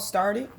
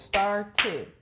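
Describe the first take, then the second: First: Said in the usual way. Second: "started" broken into star and tid; syllable by syllable. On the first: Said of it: "Can you clap out started?". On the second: Shown as a demonstration. Teacher confirming two syllables, "started" said in two separate parts. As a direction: give "started" two distinct beats. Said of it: "that's two syllables".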